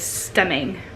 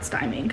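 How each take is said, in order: First: The first vowel is short, as in 'him'. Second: The first vowel is long, as in 'time'. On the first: The speaker calls it right. "the correct enunciation is" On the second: The speaker calls it wrong.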